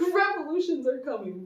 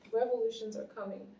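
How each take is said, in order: First: It is said loudly with forceful conviction. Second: It is said in a calm, plain voice.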